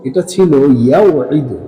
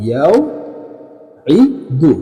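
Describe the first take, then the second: First: ইয়াউঈদু said a little slowly, at an even pace; name the original form ইয়াউঈদু clearly; teacher naming ইয়াউঈদু at a measured pace; showing the original form. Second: ইয়াউঈদু stretched very slowly, each sound held apart; teacher slowly dictating ইয়াউঈদু; drawn-out demo. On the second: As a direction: spell out ইয়াউঈদু by drawing out every sound. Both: Shown as a demonstration. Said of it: "এই ইয়াঈদু মূলত কি ছিল?".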